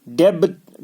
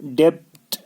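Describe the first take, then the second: First: डेप्थ said as "deb-t", B voiced; wrong form डेप्थ with audible B; sounded B. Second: डेप्थ with no voiced B; right form डेप्थ, B dropped; silent B. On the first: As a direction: release a B in डेप्थ before the T. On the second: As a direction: go from the vowel to the ending in डेप्थ. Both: Shown as a demonstration. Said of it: "बी को हमको पढ़ना ही नहीं".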